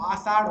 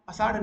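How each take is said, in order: First: "आषाढ़" with a long, loud opening "aa"; long first vowel. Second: "अषाढ़" with a short opening "a"; brief first vowel in "अषाढ़", the incorrect form. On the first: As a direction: stretch the start of "आषाढ़": "aa-saadh". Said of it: "आषाढ़ होता है". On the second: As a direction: say "अषाढ़" as colloquial "a-saadh". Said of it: "अषाढ़ नहीं तो". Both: Shown as a demonstration.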